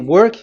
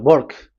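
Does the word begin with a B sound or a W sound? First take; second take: W sound; B sound. First: The word begins with a W sound. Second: The word begins with a B sound. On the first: "if you say work" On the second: "they say uh, work"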